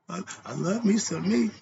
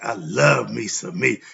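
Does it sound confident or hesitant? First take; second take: hesitant; confident. First: It is said hesitantly, without real conviction. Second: It is said with confident, heartfelt feeling.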